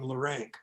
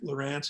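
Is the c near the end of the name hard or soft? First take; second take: hard; soft. First: The name ends with a hard k sound. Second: The name ends with a soft s sound. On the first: This is how the family pronounced it growing up. "I was raised with the name Larank. That's how we pronounced it" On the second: This is how the grandfather from Europe pronounced it. "it's just a soft C"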